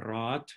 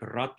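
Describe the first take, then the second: First: "raat" with the a drawn out long; long vowel. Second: "rat" with a short, clipped a; short vowel. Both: Shown as a demonstration. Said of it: "minimal pairs like rat and raat".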